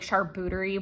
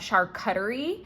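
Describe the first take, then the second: First: The middle is said like 'cooterie'. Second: The middle is said like 'cut-erie'.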